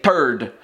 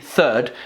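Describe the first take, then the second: First: It begins with a hard t sound. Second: It begins with a soft th sound. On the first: "the Québécois would say third, uh, like turd" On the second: "we would say third for number three"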